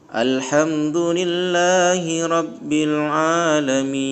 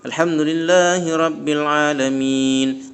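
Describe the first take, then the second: First: The long vowels are held somewhat longer. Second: The long vowels are held short and quick.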